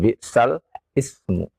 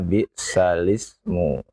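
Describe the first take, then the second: First: The words are said as two separate parts. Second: The words run together without a break. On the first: This is the form as originally written. The speaker calls it wrong. "bukan bisal ismu" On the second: This is the way it is actually recited. The speaker calls it right. "tahu cara bacanya bisalismu"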